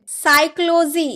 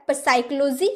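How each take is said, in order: First: साइक्लोजी starting on s; slow साइक्लोजी with no p; silent p. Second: पसाइक्लोजी with a p; mock wrong पसाइक्लोजी, rising; wrong p sounded. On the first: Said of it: "क्या आपने कभी पसाइक्लोजी बोला है?". (साइक्लोजी, प चुप) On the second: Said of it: "नहीं ना". (गलत पसाइक्लोजी) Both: Shown as a demonstration.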